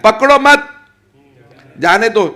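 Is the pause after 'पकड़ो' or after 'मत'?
after मत. The pause comes after the word मत.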